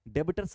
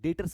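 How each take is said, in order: First: The b is pronounced in the word. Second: The b is silent in the word. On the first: The speaker calls it wrong. "डेबिटर्स नहीं बोलने वाले हैं" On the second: The speaker calls it right. "बी silent होगा, हम लोग डेटर्स बोलेंगे"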